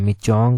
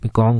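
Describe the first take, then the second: First: The middle consonant is a 'ch' sound. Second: The middle consonant is a 'k' sound. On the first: "हमने मिचोंग करके जो था वो पढ़ा था उस टाइम" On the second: "ये एक ही नाम है"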